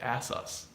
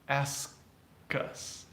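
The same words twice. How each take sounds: First: The k sound is left out. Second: The k sound is softly pronounced. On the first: The speaker calls it wrong. "You can't just say ask us" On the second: The speaker calls it right. "You definitely need to pronounce the K"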